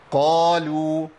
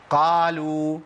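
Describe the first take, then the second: First: قالوا with a heavy, rounded "qaw-lu"; long, full-bodied "qaa" in قالوا, lips close; partly open qaf. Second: قالوا with the mouth fully open on the qaf, thinning it; long wide-open "aa" in قالوا; over-open qaf. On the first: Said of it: "يبقى انفتاح عندي إيه؟". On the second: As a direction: mispronounce قالوا with a wide, thin "qaa". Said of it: "بيعمل انفتاح كلي". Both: Shown as a demonstration.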